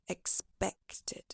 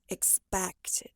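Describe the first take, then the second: First: The stressed vowel is an E sound. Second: The stressed vowel is a wide A sound. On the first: The speaker calls it right. "Try adjusting it to an E sound, so it sounds like expected" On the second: The speaker calls it wrong. "You pronounce it more like expected"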